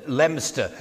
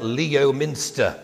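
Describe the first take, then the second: First: Leominster squeezed into LEM-ster; local pronunciation. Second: Leominster said slowly as LEE-oh-MIN-ster; spelling pronunciation. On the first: Telling listeners the town's name, Leominster pronounced LEM-ster. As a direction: say Leominster as two syllables, "Lemster". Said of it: "everybody pronounced it Leominster". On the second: Showing how the town is spelt, Leominster pronounced LEE-oh-minster. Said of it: "It's spelt Leominster". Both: Shown as a demonstration.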